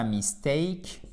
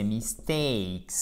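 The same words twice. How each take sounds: First: "mistake" said slowly without the final S, rising; the faulty "mistake", left hanging upward; wrong pronunciation. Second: "mistakes" slow and falling, stretched "ay" in "takes"; stressed diphthong. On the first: Teacher showing students the wrong take, faulty and rising. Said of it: "c'est pas mistake". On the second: Teacher correcting students, "mistakes" with a full stressed diphthong. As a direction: draw out the stressed "ay" of "mistakes", lower. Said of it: "C'est une diphtongue avec un accent tonique". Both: Shown as a demonstration.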